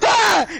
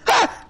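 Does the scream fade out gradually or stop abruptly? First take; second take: fades out; stops abruptly. First: The scream trails off gradually. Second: The scream cuts off abruptly.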